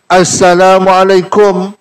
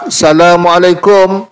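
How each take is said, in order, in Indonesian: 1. Kata ini diawali dengan bunyi 'a' yang jelas. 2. Kata ini diawali tanpa bunyi 'a'. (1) "Mesti nak Assalamualaikum" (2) "Kalau tak ada a"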